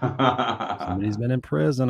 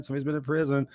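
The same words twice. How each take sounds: First: Drawn out, knowing tone on prison; slow teasing insinuation. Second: Said in the usual way. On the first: Acted. Host teases the guest about prison, slow knowing tone. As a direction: lean on prison slowly, teasing. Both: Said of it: "I'm just saying".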